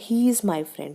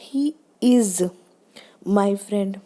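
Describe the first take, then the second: First: The stress falls on the word he. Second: The stress falls on the word is. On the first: He, and not someone else, is the friend. "ही stress किस पे दिया उसने, ही पे।" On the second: There should be no doubt that he is a friend. "इज है, आपको क्यों doubt हो रहा है"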